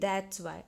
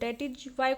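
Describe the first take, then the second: First: The first two words merge into one syllable. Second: Each word is said separately and in full.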